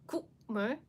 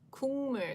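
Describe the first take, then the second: First: The first syllable ends with a k sound. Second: The first syllable ends with an ng sound. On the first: The speaker calls it wrong. "if you pronounce it as itself, like Kukmul, it's actually way harder to pronounce" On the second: The speaker calls it right. "You need to change it to ng sound"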